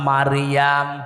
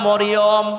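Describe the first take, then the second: First: The name is said with long 'a' vowels. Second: The name is said with short 'o' vowels. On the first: The speaker calls it right. "কোরআনে আছে সূরা মারিয়াম" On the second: The speaker calls it wrong. "অনেকে বলে সূরা মরিয়ম। না"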